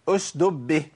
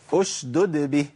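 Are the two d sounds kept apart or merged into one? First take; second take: merged; apart. First: Only one d sound is pronounced. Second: Both d sounds are clearly pronounced. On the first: The speaker calls it wrong. "جاب الساكنة وضيع المتحركة" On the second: The speaker calls it right. "لازم أبين الدالين"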